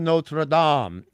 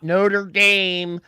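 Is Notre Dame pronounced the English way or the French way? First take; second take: French; English. First: The name is said with a French-style pronunciation. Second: The name is said with an anglicized pronunciation. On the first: The speaker calls it right. "thank you for pronouncing that correctly" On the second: The speaker calls it wrong. "That's how Homer Simpson would say it"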